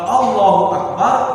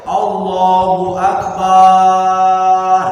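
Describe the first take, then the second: First: The last vowel of Akbar is kept short. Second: The last vowel of Akbar is drawn out long. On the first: It means God is the Greatest. The speaker calls it right. "Tapi kalau Allahu Akbar, Allah Maha Besar" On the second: It means God is a drum. The speaker calls it wrong. "tak boleh Allahu Akbar ... Akbar kalau banyak panjang itu artinya gendam"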